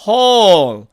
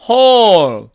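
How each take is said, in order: Both takes have the same delivery.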